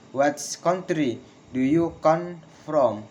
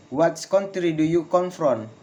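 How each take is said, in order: First: Slow, split into chunks, "from" falling; slow falling question. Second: Connected question, falling on "from"; falling question intonation. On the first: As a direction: dictate the question in pieces. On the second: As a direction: model the question, "from" dropping. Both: Shown as a demonstration. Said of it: "Failing intonation in with, in questions".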